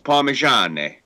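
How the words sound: The word ends in an 'e' vowel sound. This is how it is said in the north. "up north, it's Parmigiane"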